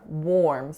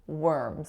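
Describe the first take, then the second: First: The vowel sounds like or. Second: The vowel sounds like er. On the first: The speaker calls it wrong. "it looks like it should be or, worms, which is what I said" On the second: The speaker calls it right. "it's just pronounced er"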